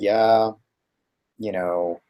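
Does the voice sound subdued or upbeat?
subdued. The voice is subdued and lower in pitch. Things are frustrating. "he just dropped a little bit. He wasn't quite as high notes in his voice"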